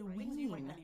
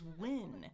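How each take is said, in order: First: The vowel is a long, tense 'ee' sound. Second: The vowel is a short, relaxed 'i' sound. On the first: The speaker calls it wrong. "I used to say ween" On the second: The speaker calls it right. "now I know the difference is win"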